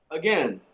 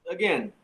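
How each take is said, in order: The two takes are said the same way.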